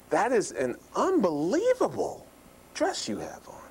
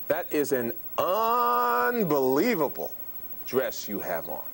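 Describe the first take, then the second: First: The pitch swings noticeably up and down. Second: The sounds are stretched out and drawn long. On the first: "Let me do pitch again" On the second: "Duration of sound, which is rate"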